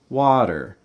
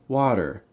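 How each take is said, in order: First: The pitch rises on the first syllable, then falls. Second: The pitch rises on the first syllable, then falls.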